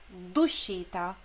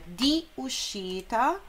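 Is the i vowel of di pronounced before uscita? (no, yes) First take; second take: no; yes. First: The i is dropped and d joins uscita. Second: The i of di is pronounced before uscita. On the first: "este i aqui foi eliminado e substituído com um apóstrofo, então fica, por uma questão fonética, duscita" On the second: "porque seria di uscita"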